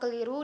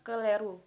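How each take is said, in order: First: The second vowel is pronounced as an i. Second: The second vowel is pronounced as an e. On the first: The speaker calls it right. "Kata keliru" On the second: The speaker calls it wrong. "menunjukkan penyebab kesalahan fonem i diucapkan e"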